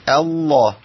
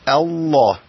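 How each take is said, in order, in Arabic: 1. اللام تُنطق مفخّمة وثقيلة. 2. اللام تُنطق مفخّمة وثقيلة.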